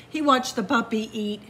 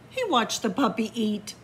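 The two takes are said the same way.

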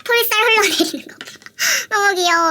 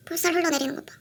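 First: Higher, louder gushing; excited gush. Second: Said in the usual way. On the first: Real, not acted. Showing viewers the droopy cheeks, loud high gush.

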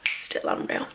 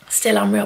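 First: Breathy whispered repeat; repeating to herself in a whisper. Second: Said in the usual way. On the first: Real, not acted. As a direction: whisper it to yourself. Repeats the line, then whispers.

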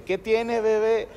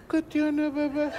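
First: Lightly voiced baby talk, a bit higher; a hint of cooing at a child; imitating Alfredo. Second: Put-on high, soft baby talk to a grown wife; voz de niña. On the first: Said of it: "imitar las voces de Alfredo y Adriana". (imitación ligera de voz melosa) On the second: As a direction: coo it like talking to a little girl. Marido habla como a niña. (voz aniñada y melosa)

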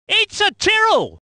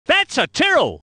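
First: High, punched car name; excited identification. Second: Said in the usual way. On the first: Acted. Commentator spotting a Tyrrell, high excited call. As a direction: lift it into an exclamation.

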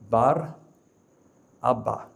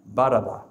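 First: Bar, a pause, then Abba; slowly split. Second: Said in the usual way. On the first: Shown as a demonstration. Preacher spelling out the name for the crowd, slowly. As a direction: lay Bar and Abba apart so each part is heard. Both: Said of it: "the word slowly".

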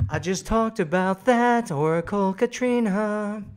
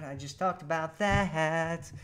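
First: Louder, higher playful exasperation; mock exasperated. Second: Said in the usual way. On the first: Real, not acted. Host teasing a viewer who repeated her question, loud mock exasperation. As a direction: tease the viewer for asking twice.

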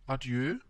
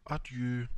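First: ADIEU with a rising, questioning end; tentative Adieu lifted at the end; questioning repeat. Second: Said in the usual way. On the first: A narrator's reading. Repeats farewell after no answer.

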